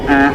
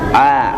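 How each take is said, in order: First: The vowel comes out through the nose. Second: The vowel comes from the throat, not nose. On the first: The speaker calls it wrong. "Kalau vokal tidak boleh keluar dari rongga hidung, jadi a gitu nggak boleh" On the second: The speaker calls it right. "ain itu ada di tengah tenggorokan dan vokalnya keluar dari al-jawf, maka mengucapkannya a"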